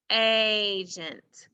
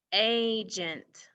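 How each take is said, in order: First: "Agent" said again louder, with the first syllable "A" leaned on; louder repeat. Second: Said in the usual way. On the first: Shown as a demonstration. Teacher repeats the word louder for the class, stressing "A". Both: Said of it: "What part of that word says".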